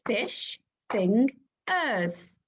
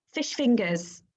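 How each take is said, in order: First: Fish fingers said very slowly, beat by beat; chunked syllables. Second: Said in the usual way. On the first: Shown as a demonstration. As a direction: stretch it into clapped chunks. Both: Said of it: "Let's chunk that word".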